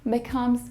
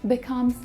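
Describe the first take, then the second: The two takes are said the same way.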